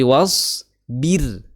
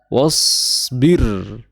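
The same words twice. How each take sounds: First: The r sound is thin and light. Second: The r sound is thick and heavy. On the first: The speaker calls it right. "tapi was bir, seperti itu, tipis ya" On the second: The speaker calls it wrong. "bukan was bir"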